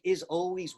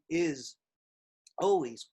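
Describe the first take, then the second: First: "is always" glided smoothly as one phrase; run together as one unit. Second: "is" then a long pause before "always"; broken apart. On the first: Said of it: "make "is always" one unit". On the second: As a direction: chop "is ... always" into separate pieces. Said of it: "I've seen students do". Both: Shown as a demonstration.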